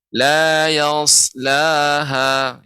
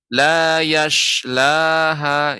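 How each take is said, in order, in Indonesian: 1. Bunyi s-nya tebal dan berat, dengan lidah terangkat. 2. Bunyi s berubah menjadi bunyi sh yang mendesis. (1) "yang benar yas pakai sad" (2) "Atau jadi shin"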